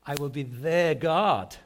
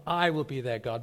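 First: Slow build to a loud, drawn-out "their God"; stress on THEIR GOD. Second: "I" hit hard, the rest falling away; stress on I. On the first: Preacher trying another emphasis on the promise, stress on "their God". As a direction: land hard on "their God". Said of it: "what if I put the emphasis on". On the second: Preacher showing where the emphasis was, stress on "I". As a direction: punch the first word, "I". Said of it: "I just put the emphasis on". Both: Shown as a demonstration.

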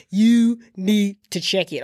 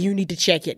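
First: YOU NEED TO CHECK IT drawn out slowly; slow, weighty warning on every word; emphatic repeat. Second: Said in the usual way. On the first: Real, not acted.

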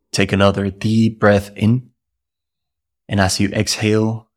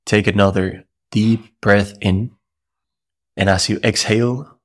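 No difference in how they are said.

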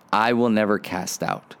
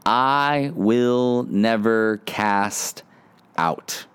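First: Said in the usual way. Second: Slow emphatic. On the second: Shown as a demonstration.

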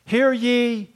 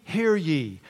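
First: Loud proclamation. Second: Said in the usual way. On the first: Retold or imitated.

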